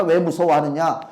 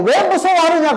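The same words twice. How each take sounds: First: Said in the usual way. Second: High, loud stress on 왜; 왜 hit high and hard, then falls; rebuking question. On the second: Acted. Pastor voicing Jesus rebuking frightened disciples, punching 왜.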